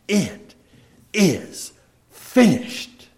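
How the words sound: It is said loudly, in a triumphant tone. The task has been accomplished victoriously. The speaker calls it right. "it was said in a loud voice"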